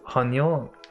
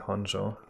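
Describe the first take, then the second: First: The middle consonant sounds like a 'y'. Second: The middle consonant sounds like an English 'j'. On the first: The speaker calls it right. "you pronounce it like that in German" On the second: The speaker calls it wrong. "you're pronouncing it wrong if you say Honjo"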